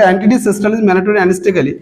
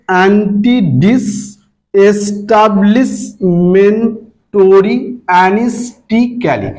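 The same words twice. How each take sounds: First: Said in the usual way. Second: অ্যান্টিডিস এস্টাবলিশমেন্টরি অ্যানিস্টিক্যালি in slow, separate syllables. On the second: Shown as a demonstration. Teacher demonstrating pronunciation to students, syllable by syllable. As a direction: sound out each syllable with a small gap. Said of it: "সিলেবালি উচ্চারণ করবে".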